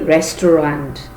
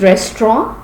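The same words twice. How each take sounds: First: It is sounded out following its spelling. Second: It is said the natural spoken way. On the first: This shows how the word is written. "but spelling would be restaurant" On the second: This is how the word is really spoken. "Pronunciation is restaurant"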